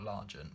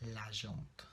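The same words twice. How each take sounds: First: The word is said with an English pronunciation. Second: The word is said with a French pronunciation. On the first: The speaker calls it wrong. "not L'Argent" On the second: The speaker calls it right. "but L'Argent, because it is French"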